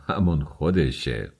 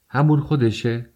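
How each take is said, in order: First: Said in the usual way. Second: High-pitched exclaimed question on همون خودشه; crying out. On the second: A narrator's reading. Raskolnikov challenges Svidrigailov's words, crying out. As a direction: throw همون خودشه back as a raised, startled cry. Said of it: "راسکولنیکوف فریاد زد".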